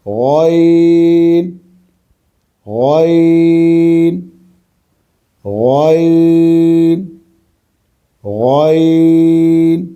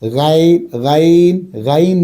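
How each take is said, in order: First: The letter name is pronounced heavy and full. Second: The letter name is pronounced light and thin. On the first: The speaker calls it right. "इसे मोटा पढ़ना है" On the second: The speaker calls it wrong. "नहीं"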